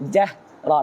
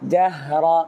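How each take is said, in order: First: The breath cuts off abruptly at the h. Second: The breath keeps flowing through the h. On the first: The speaker calls it wrong. "অনেকে শ্বাস বন্ধ হয়ে যায়" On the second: The speaker calls it right. "শ্বাস বন্ধ হবে না"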